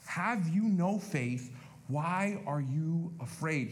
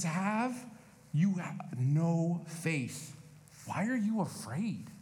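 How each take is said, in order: First: Preacher repeating the rebuke, slowly; slow, weighty repeat. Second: Drawn-out "you no faith"; slow gentle rebuke. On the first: Shown as a demonstration. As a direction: stress "no" in "Have you no faith?". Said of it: "repeated verse". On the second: Retold or imitated. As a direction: ask it slowly and gently. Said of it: "He says".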